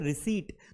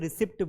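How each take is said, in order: First: No p sound is heard before the final t. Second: A p sound is heard before the final t. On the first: The speaker calls it right. "ये पी silent है, इसे हम कहेंगे रिसीट" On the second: The speaker calls it wrong. "दुनिया के नब्बे percent लोग इसे क्या बोलते हैं, रिसिप्ट बोलते हैं"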